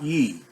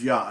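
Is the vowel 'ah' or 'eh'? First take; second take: eh; ah. First: The vowel sounds like 'eh'. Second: The vowel sounds like 'ah'. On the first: The speaker calls it wrong. "not Ye" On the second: The speaker calls it right. "without question pronounced as Yah"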